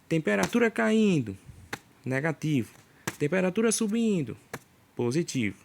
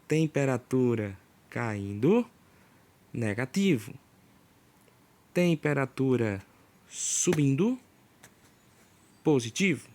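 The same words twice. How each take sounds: First: It is spoken at a normal, quicker pace. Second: It is spoken at a slower, deliberate pace.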